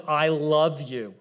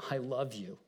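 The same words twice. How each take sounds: First: Slow, tender "I love you". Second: Much softer, near-hushed "I love you"; soft tender. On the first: Jesus speaking to someone, slow and tender. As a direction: say it slowly like you mean it. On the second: Jesus speaking to someone, hushed and tender. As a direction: let it fall to a hush. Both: Shown as a demonstration.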